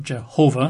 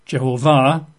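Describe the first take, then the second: First: Jehovah with the weight on HO; Jehovah stressed in the middle, light unstressed ending; stress on middle syllable. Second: Jehovah with the weight on the final VAH; Hebrew-style Jehovah, final syllable stressed; stress on last syllable. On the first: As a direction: say Jehovah the English way, je-HO-vah. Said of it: "not Jehovah". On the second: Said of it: "the emphasis at the end". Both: Shown as a demonstration.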